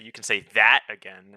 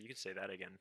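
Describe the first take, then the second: First: The phrase is said loudly with strong emphasis. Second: The phrase is said quietly and casually. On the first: "I don't say" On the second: "I usually drop it um more like subtly"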